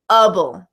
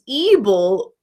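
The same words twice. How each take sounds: First: The ending has a reduced schwa vowel. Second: The ending has a full, unreduced vowel. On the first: The speaker calls it right. "we pronounce them able" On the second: The speaker calls it wrong. "we don't pronounce these able"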